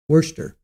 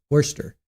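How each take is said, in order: Both takes have the same delivery.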